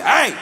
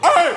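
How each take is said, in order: First: The yell stays steady without cracking. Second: The yell breaks with a voice crack.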